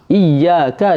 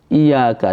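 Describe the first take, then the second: First: The y sound is doubled and held. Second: The y sound is single and short. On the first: Only you we worship. The speaker calls it right. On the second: Your sunlight we worship. The speaker calls it wrong.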